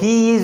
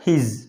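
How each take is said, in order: First: Two separate words are said in full. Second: The two words are merged into one syllable. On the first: "So he is is pronounced as his" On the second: "pronounced as his"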